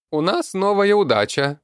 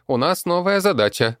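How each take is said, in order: First: High creaky goblin voice, loud, удача for задача; goblin mispronouncing задача as удача. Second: High loud goblin, "задача" said properly; goblin saying задача correctly. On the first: Goblin announces the new task to the crowd, garbling it. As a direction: shout "новая удача" high and creaky, mangling the word. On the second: Goblin corrects the word before the crowd, high-pitched. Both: A narrator's reading.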